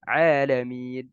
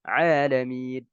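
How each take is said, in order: The two takes are said the same way.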